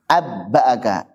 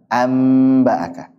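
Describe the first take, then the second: First: The n merges fully into a doubled b. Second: The n turns into a clear m sound. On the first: The speaker calls it wrong. "enggak cocok dengan dengan idgham" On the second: The speaker calls it right. "Paling ringan mana?"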